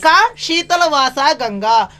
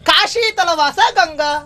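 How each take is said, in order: First: A pause comes right after the first syllable. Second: The first syllable runs on without a pause. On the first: It asks who lives in the cool Ganga. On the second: It says Ganga dwells in Kashi.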